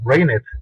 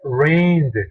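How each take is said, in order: First: The ending does not sound like a plain D. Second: The ending sounds like a plain D. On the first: The speaker calls it wrong. "tú no la vas a pronunciar al final como esto" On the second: The speaker calls it right. "la pronunciación correcta sería rained"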